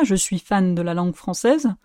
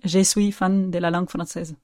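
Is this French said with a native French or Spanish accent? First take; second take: native French; Spanish. First: It is said with a native French accent. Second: It is said with a Spanish accent.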